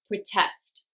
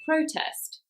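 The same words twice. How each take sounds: First: The stress is on the second syllable. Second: The stress is on the first syllable. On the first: It is used as a verb. "this is another two-syllable verb, so stress is on the second" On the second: It is used as a noun. "If this word was a noun, though, it would be on the first syllable"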